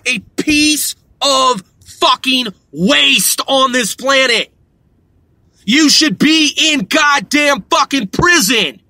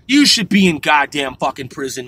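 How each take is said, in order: First: Furious shout. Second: Said in the usual way. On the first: Real, not acted. Ranting at scam robocallers.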